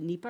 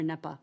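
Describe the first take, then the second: First: "nepa" said as NEE-puh; long-e pronunciation. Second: "nepa" said as NEP-uh; short-e pronunciation. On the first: Speaker checking how to say the policy act's short name, "nepa" as NEE-puh. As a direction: say "nepa" with a long ee in the first syllable. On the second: Speaker offering the other way to say the act's short name, "nepa" as NEP-uh. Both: Shown as a demonstration. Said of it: "Is it nepa or nepa?".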